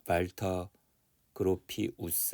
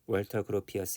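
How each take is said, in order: First: The name is pronounced in a German way. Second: The name is pronounced in an English way. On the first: "독일어식으로 읽으면" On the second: "영어식으로 읽으면은"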